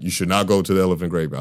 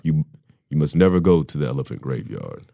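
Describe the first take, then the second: First: Lightly voiced Mufasa, quick and unimpressive; weak Mufasa quote. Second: Mufasa voice. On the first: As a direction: hand it off like a weak movie line. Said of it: "And when he said". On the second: Pretend. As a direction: show how Mufasa should sound, deep and commanding. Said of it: "you sound like Mufasa".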